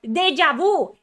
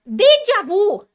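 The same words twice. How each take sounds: First: Loud exasperated exclamation; raised, agitated shout; ranting breakdown. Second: High, drawn-out full shout; loud escalating meltdown; ranting breakdown. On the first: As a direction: cry out DEJA VU loudly. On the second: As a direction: yell DEJA VU slower and higher. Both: Real, not acted. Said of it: "I'm having a fucking mental breakdown".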